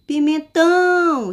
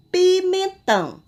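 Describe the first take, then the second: First: "Pimentão" called loud and high, "tão" stretched long; calling out, last syllable stressed. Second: Said in the usual way. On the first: Shown as a demonstration. Teacher calling the word for pupils, "Pimentão" with a long, loud "tão". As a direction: call "Pimentão" out, pouring force into the final "tão". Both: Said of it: "Vamos chamar esse nome".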